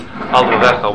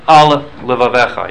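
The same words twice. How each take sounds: First: Al levavecha run together as one long word, the l swallowed; words merged. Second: Al levavecha with a clear pause between al and levavecha; pause between words. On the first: Rabbi shows students the careless reading, words merged together. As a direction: slur al levavecha into a single blurred word. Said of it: "one long word". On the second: Rabbi shows students how to say the verse properly, with a clear break between words. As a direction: separate al and levavecha cleanly, no merging. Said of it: "You have to pause". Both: Shown as a demonstration.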